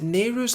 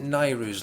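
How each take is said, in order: First: The first syllable sounds like 'nay'. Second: The first syllable sounds like 'nigh'. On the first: Many other people say it this way. "I've heard lots of people say Nehru" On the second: The speaker said it this way growing up. "I always pronounced it Nairu"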